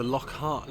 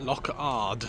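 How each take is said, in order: First: "Lockhart" with an H sound; mispronounced name. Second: "Lockard" without an H sound; corrected name. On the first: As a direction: say "Lockhart" as lock plus heart. Misreads name, then corrects it. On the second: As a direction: say "Lockard" as lock plus ard. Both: Real, not acted.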